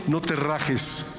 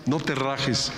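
First: "no te rajes" drawn out slowly, each word weighted; slow right down on "no te rajes"; slow emphatic. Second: Said in the usual way. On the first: Shown as a demonstration.

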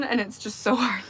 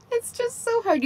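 First: Said in the usual way. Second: High whiny repeat of so hard; mock whine. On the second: Real, not acted.

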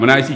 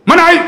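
First: Said in the usual way. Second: Tengkingan pendek, tinggi dan lantang; marah. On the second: Retold or imitated. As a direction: lakonkan pegawai menyergah. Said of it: "dia cakap macam tu". (sergah dengan suara garang)

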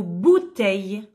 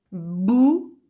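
First: Said in the usual way. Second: "bouteille" split by a long pause, bou... teille; syllable by syllable. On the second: Shown as a demonstration. Teacher showing pupils the syllables, "bouteille" syllable by syllable. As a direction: break "bouteille" into two separate beats. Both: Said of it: "Si je supprime la première syllabe".

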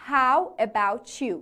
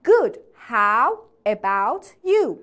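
First: "How about you" with "about you" linked as "abou-chu"; merged pronunciation. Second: Slow "Good, how about you", word by word; beginner's careful pronunciation. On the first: Teacher showing learners they can merge, "about you" run together. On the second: Teacher modelling for beginners, "how about you" slowly in separate words. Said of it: "اول راهی دقیقاً همینجوری تلفظ کنی". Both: Shown as a demonstration.

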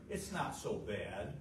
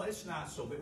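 First: Slow, lower rationalizing mumble; slow excuse. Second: Said in the usual way. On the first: Shown as a demonstration. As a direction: lower and slow, talking oneself into it. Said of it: "We start". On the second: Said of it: "We start, "It's not so bad".

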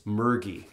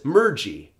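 First: "mergy" with a hard G as in "get". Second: "mergy" with the G softened like a J; soft G. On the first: Teacher correcting the learner, hard G in "mergy". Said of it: "with a hard G sound". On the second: Teacher voicing a learner's mistake, soft G in "mergy". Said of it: "it's mergy with a hard G sound". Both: Shown as a demonstration.

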